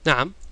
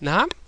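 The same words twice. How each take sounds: First: It sounds like a plain, affirming yes. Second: It sounds like a surprised, questioning word.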